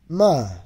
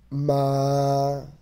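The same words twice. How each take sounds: First: The syllable is said with the fourth tone. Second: The syllable is said with the first tone.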